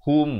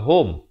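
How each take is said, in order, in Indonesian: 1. Bunyi vokalnya seperti 'u'. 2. Bunyi vokalnya seperti 'o'.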